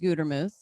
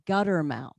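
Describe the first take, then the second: First: The last syllable does not sound like 'mouth'. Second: The last syllable sounds like the word 'mouth'. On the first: The speaker calls it right. "my last name is Gutermuth" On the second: The speaker calls it wrong. "a lot of people mispronounce it though, and they'll say Guttermouth"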